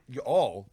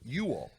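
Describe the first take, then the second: First: The stress falls on the word all. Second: The stress falls on the word you. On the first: The speaker calls it wrong. "not you all" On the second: The speaker calls it right. "Accents on the first syllable you"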